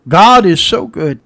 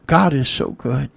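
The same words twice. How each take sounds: First: Louder, slower, proclaiming God is so good; emphatic praise. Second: Said in the usual way. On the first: Shown as a demonstration. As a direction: lift it up and proclaim it. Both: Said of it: "I'm saying".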